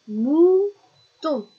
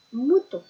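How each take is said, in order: First: "Mouton" with long, high, loud "mou", then "ton"; held rising "mou", pause, separate "ton"; split into syllables. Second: Said in the usual way. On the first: Shown as a demonstration. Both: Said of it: "ça fait".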